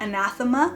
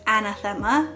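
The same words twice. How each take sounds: First: The word is pronounced the English way. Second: The word is pronounced the Spanish way. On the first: The speaker calls it right. "not anathema" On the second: The speaker calls it wrong. "my Spanish mind is anathema"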